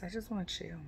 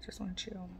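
First: Said in the usual way. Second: Whisper. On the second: Real, not acted. Repeats line, second time whispered.

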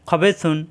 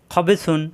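The two takes are said the same way.

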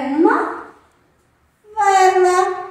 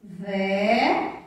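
First: VELA loud and high; raised, ringing VELA to delight the children; excited reveal. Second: VELA split slowly into ve, then la; measured VELA, long gap between syllables; dictation style. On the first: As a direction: announce VELA like the big surprise. Revealing last object from box. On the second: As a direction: sound out VE-LA at a lower pitch for children writing. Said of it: "Vamos escrever a palavrinha vela". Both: Shown as a demonstration.

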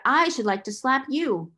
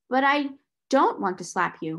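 First: Raised, pointed retort; some fire. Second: Heat reined in, pitch dropping; restraining herself. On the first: Girl answers her rival's threat, some fire. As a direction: turn it on the rival with controlled heat. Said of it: "she said with some fire". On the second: Girl checks her temper before rival, restraining herself. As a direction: start heated, then check yourself. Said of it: "restraining herself". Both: A narrator's reading.

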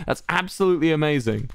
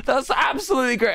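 First: Said in the usual way. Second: Sarcastic shout. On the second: Acted. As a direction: yell it with fake delight. Mock cheer at chat message.

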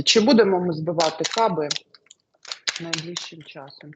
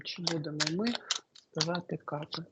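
First: Said in the usual way. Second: Much softer, muttered to herself; quiet murmur. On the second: Real, not acted. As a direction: mumble it under your breath, as if thinking. Repeats the question to herself.

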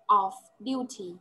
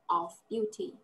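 First: "Off duty" said slowly, each syllable clear, falling at the end; slow model pronunciation. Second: "Off duty" repeated softer and lower, lifting a little at the end to invite the echo. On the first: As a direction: drag out "Off duty" so the student catches every sound. (đọc chậm "Off duty", rõ từng âm, xuống giọng cuối) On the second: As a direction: say "Off duty" quietly, rising so the student answers. (nhắc lại "Off duty" nhỏ hơn, hơi lên giọng cuối để học sinh đọc theo) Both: Shown as a demonstration. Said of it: "repeat after me".

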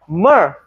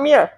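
First: Myrrh as one syllable, "mur"; drawn-out "mur" for myrrh, no EE sound; corrected pronunciation. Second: Myrrh mispronounced as "meer"; the mistaken "meer" for myrrh; wrong pronunciation. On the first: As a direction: say myrrh with a long open vowel, "muhh". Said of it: "not myrrh". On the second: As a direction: say myrrh with an EE glide, "mi-er". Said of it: "No, not myrrh". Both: Shown as a demonstration.

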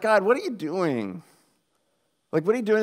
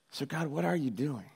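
First: Baffled, challenging question to God; acted-out exasperated disbelief; incredulous questioning. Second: Soft, earnest question to God; hushed, genuinely searching question; sincere questioning. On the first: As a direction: demand an explanation, stretched out, then repeated more insistently. Questions God, suspecting he is messing. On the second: Acted. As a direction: ask it quietly, without accusation. Asks again, no longer accusing.

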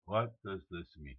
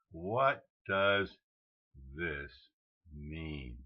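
First: Said in the usual way. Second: Slow, with a pause before THIS and MEAN; word by word. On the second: Real, not acted. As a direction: spell out the question one word at a time. Puzzled question spaced word by word.

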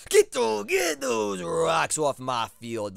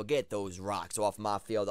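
First: High, loud, slowly stretched yell; pleading yell. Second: Said in the usual way. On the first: Real, not acted. Player begging his Togetic to clear the rocks, loud and slow. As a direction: drag out every word like a begging chant. Urging his Pokemon to defog.

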